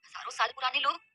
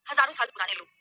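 First: "हजारों साल पुराने लोग" softer, rising at the end; puzzled echo question. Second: Said in the usual way. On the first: Acted. Puzzled listener repeats "हजारों साल पुराने लोग", questioning rise.

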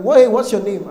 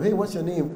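First: Much louder, insistent question; acted shock, voice jumping up; startled demand. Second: Said in the usual way. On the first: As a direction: demand the name in loud disbelief. Women startled, ask again sharply.

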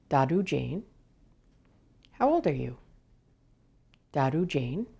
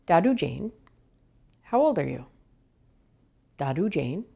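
The two takes are said the same way.

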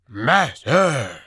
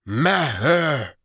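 First: Loud call, consonants still blurred; wolf creature calling. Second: High, loud call with mangled consonants; wolf creature calling. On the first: False wolf calls again for the sorcerer, loud. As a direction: shout the word, clearer this time. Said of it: "it called". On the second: False wolf calls its master at the hut door, loud and mangled. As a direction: bark out the name, dropping the consonant. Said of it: "it had trouble with some consonants". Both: A narrator's reading.

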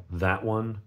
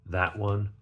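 No difference in how they are said.

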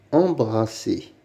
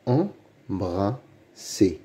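First: Said in the usual way. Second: "Embrasser" very slowly, in three separate beats; syllable by syllable. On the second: Shown as a demonstration. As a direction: sound out "Embrasser" with pauses. (« Embrasser » très lentement, syllabe par syllabe) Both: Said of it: "Lis les mots".

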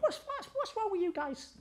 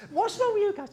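First: Much higher, softer imitation of Danny; Danny's way of talking. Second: Much higher imitated voice of Danny; Danny's way of talking. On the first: Account man asking the stuck team, high imitated voice. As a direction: do Danny's odd lilting voice. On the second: Account man asking the stuck team, high imitation. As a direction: repeat Danny's high sing-song question. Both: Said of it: "That's kind of how he spoke".

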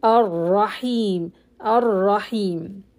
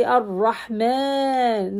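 First: Slow Ar-Rahim, measured stretch; correct recitation. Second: Ar-Rahman with the final a held too long; wrong long stretch. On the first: Teacher modelling correct length. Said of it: "don't stretch more than two". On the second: Teacher demonstrating overlong stretch. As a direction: overstretch Ar-Rahman for contrast. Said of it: "Don't say Ar-Rahman". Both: Shown as a demonstration.

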